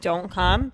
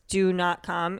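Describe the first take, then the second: First: The words are run together without gaps between them. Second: The words are spaced apart with gaps between them. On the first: The request is casual. "instead of" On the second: The request is firm and should not be ignored. "if they space out the words"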